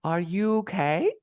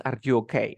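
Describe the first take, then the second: First: "Are you okay" slow, okay stretched and rising; stress on OKAY. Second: "Are you okay" kept low, okay unstressed; wrong question tune. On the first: Teacher showing student the last word stressed, long rise. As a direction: lean on "okay" and lift it high. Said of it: "última palabra". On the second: Teacher rejecting the wrong version, unstressed tune. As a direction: run "Are you okay" through without lifting the end. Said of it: "No, no es". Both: Shown as a demonstration.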